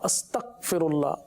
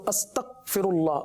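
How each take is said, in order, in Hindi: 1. बीच का व्यंजन कठोर k या g स्टॉप है। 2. बीच का व्यंजन कठोर k या g स्टॉप है।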